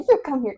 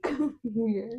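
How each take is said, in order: First: Higher, louder scolding command; mock-stern retold order; stern mom order. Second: Soft, higher beckoning; tender retold invitation; gentle coaxing mom. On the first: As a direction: act out a mother summoning a naughty child. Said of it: "'cause he was giving that little stink face". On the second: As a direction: act out coaxing a sorry child closer. Coaxing the same child gently.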